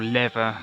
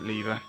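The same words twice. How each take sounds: First: The word is said with an American accent. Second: The word is said with a British accent. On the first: "Or lever, as Americans bizarrely say" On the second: "I, I say uh, lever"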